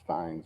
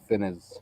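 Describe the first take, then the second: First: The name is said with one syllable. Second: The name is said with two syllables. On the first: The speaker calls it right. "it's Fines" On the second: The speaker calls it wrong. "I used to always call him Joseph Finney's"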